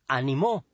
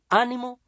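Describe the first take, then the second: First: The stress is on the last syllable. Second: The stress is on the first syllable. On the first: Someone else encouraged in the past. "se tilda porque es aguda" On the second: It means encouragement, a noun. "se tilda porque es esdrújula"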